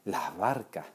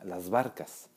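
First: The s is a breathy h sound before barca. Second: The s is clearly pronounced before barcas. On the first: "en las variantes que aspiran la S" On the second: "el plural normalmente, o en varias variantes, se diría las barcas"

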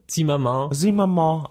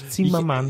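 First: The name is said with a French pronunciation. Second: The name is said with a German pronunciation. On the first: "Auf Französisch" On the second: "auf Deutsch"

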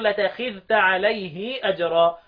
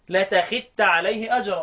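First: The vowel after the h is drawn out long. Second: The dh merges into t; the h vowel stays short. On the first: "وفيها الصلة لابن كثير" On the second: "فيها الادغام لابو عمرو"

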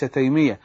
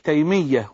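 First: The name is clipped short, Bedouin style. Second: The name is said fully, without clipping. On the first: The speaker calls it wrong. "اللهجة البدوية ساعات بتخلي الناس تخطف كده" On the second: The speaker calls it right. "النطق الصحيح"

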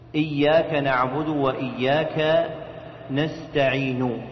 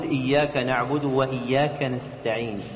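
First: The last word ends with a full u vowel. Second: The last word ends on a bare consonant. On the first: "وهذا ضم جاء فيه الصوت تاما" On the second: "وهذا سكون عزل فيه الحرف عن حركته"

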